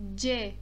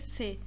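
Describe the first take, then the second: First: The letter begins with a 'dj' sound. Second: The letter begins with an 's' sound. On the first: The speaker calls it right. "No alfabeto turco, nós falamos" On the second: The speaker calls it wrong. "Nós não falamos"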